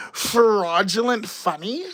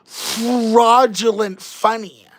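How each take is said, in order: First: Fraudulent repeated slowly, rising into a question; incredulous echo. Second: Fraudulent drawn out slowly with a falling close; stating fraudulent as a slow, firm verdict; stressed coinage. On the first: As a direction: echo fraudulent funny in slow disbelief. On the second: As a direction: lean slowly on the made-up term fraudulent funny. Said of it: "that's actually". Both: Shown as a demonstration.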